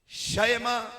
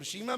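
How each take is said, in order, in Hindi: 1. पहला स्वर एक खुला 'a' ध्वनि है। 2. पहला स्वर एक लंबा 'ee' ध्वनि है। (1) "शीन के फतह के साथ" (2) "शीमा भी लोग कहते हैं"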